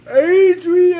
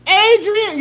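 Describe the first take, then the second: First: Loud, higher, anguished bellow of the name; Rocky shout. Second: Said in the usual way. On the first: Retold or imitated. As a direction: yell it like Rocky calling for her. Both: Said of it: "you mean like in Rocky?".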